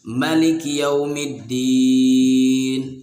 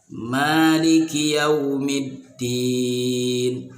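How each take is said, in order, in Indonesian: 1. Vokal pertama pada Maliki dibaca pendek. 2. Vokal pertama pada Maliki dibaca panjang. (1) "tanpa alif ... pendek" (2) "mimnya dengan huruf alif. Jadi mimnya panjang"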